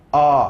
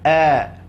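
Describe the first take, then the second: First: The vowel is thick, said with a wide-open mouth. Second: The vowel is thin, said with spread lips. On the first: The speaker calls it wrong. "tak perlu a" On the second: The speaker calls it right. "Maka cukup dengan a"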